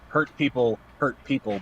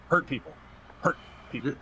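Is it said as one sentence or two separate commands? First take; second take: one sentence; two commands. First: It runs on as one continuous sentence. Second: It comes as two separate, parallel commands. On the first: A hurt person will hurt others. The speaker calls it wrong. "otherwise it sounds like you know" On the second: Hurt people twice. The speaker calls it right.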